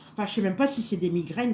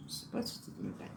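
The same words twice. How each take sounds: First: Said in the usual way. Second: Breathy whisper to herself, as an aside. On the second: Real, not acted. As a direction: drop to a whisper, musing alone. Repeats doubt under her breath. (chuchoté pour soi, en aparté)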